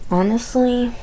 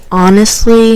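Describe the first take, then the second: First: Said in the usual way. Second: "honestly" said much louder for emphasis; emphatic repeat. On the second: Real, not acted. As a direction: hit "honestly" hard and loud.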